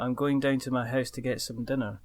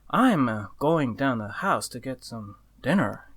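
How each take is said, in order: First: The sentence flows without breaks in the middle. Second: The sentence is broken by pauses in the middle. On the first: "So if you're gonna say" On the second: "you almost write a sentence with full stops in the middle"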